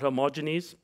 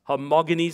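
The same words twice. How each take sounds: First: The G is soft, like a J sound. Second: The G is hard, as in 'go'. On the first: The speaker calls it wrong. "not a J-J, a soft G" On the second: The speaker calls it right. "it's a hard G"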